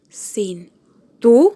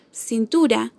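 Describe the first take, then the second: First: "cintura" as cin - TU - ra, TU rising and loud; syllable by syllable. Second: Said in the usual way. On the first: Shown as a demonstration. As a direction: sound out "cintura" slowly, punching TU upward. ("cintura" sílaba por sílaba, marcando TU) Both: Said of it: "tiene su acento en la penúltima sílaba".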